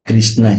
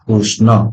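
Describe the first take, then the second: First: The first syllable is pronounced with 'ri'. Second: The first syllable is pronounced with 'ru'. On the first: This is how Hindi and other speakers say it. "ସେମାନେ କହିଥାନ୍ତି କ୍ରିଷ୍ଣା" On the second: This is how Odia speakers say it. "ଆମେ କିନ୍ତୁ ରୁ କୁ ରୁ କହିଥାଉ"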